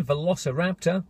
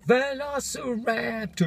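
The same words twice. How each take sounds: First: Said in the usual way. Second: Slow, high drawn-out monster voice; mock dinosaur. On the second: Vlogger hamming up the album title as a dinosaur. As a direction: stretch it out like a lurking beast.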